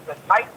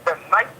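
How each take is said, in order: Both takes have the same delivery.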